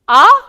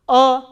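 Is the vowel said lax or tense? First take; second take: tense; lax. First: The vowel is said tense and full. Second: The vowel is said lax and reduced. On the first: It is the stressed vowel. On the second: It is the unstressed vowel.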